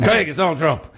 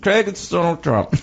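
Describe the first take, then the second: First: Lightly voiced politician impression, a little higher; half-committed impersonation on a phone call; Donald Trump. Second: Higher-pitched mock German accent. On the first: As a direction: try a loose celebrity impersonation, pitched slightly up. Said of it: "this is my Trump impression". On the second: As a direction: put on a comic German accent. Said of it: "give him a German accent".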